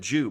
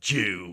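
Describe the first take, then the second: First: The word is said in a plain, neutral tone. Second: The word is said in a sneering, contemptuous tone. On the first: It simply states a fact. "a point of fact that you're making" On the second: It is meant as an insult. "or an insult"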